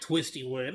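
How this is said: It is said flat, with dull low energy. The speaker calls it wrong. "you freaking kind of killed the freaking vibe"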